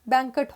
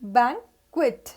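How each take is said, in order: First: The second syllable has no 'w' sound. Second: The second syllable sounds like 'kwit'. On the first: The speaker calls it wrong. "All are मिसप्रोनाउंस्ड" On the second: The speaker calls it right. "बैंक plus क्विट"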